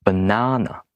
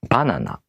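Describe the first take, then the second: First: Banana with the middle NA stressed; English stress on the middle of Banana; stress on second syllable. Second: Banana with accent on the first BA; BA-na-na, even vowels, accent up front; Japanese pitch accent. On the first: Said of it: "Stressed syllables are more emphasized". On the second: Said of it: "Accented syllables are more emphasized". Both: Shown as a demonstration.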